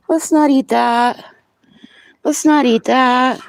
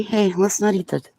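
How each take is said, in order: First: High, slow sing-song scolding. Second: Said in the usual way. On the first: Real, not acted. Stopping animal eating something.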